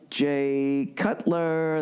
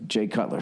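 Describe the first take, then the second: First: Drawn announcer. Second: Said in the usual way. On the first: Shown as a demonstration. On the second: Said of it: "That's right".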